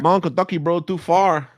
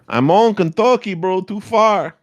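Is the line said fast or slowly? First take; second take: fast; slowly. First: The line is said at a faster pace. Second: The line is said at a slower pace.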